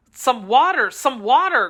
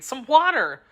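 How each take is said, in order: First: Calling loudly for water; crying out. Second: Urgent call for water; crying out. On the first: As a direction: cry out urgently for water. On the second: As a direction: cry out for water once more. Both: Acted. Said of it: "cried D'Artagnan".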